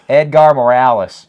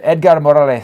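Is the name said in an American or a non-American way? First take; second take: American; non-American. First: The name is said in an American way. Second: The name is said in a non-American way. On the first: "I'll say it in, in, in the uh, American way" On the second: "I don't know why I said it that way"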